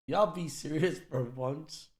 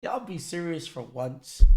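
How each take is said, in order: First: Softer, slower weary plea; quiet plea. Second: Said in the usual way. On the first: Real, not acted. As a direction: plead it quietly, slowly. Streamer repeats plea softer.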